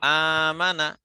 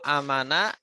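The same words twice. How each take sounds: First: The first vowel is said long. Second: The first vowel is said short. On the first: It means having faith. "artinya beriman" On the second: It means being safe. "yang pendek itu artinya itu aman"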